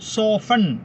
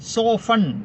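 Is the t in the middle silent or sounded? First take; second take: silent; silent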